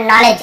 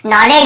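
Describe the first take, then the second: First: नॉलेज with no hard D; नॉलेज ending in a simple J sound; silent D. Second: नॉलेज with a hard D before the J; wrong D sounded. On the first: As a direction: say नॉलेज as "noll-ej". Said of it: "केवल नॉलेज ऐसे पढ़े". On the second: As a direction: say नॉलेज as "nolled-je". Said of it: "नॉलेज ही नहीं पढ़ रहे". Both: Shown as a demonstration.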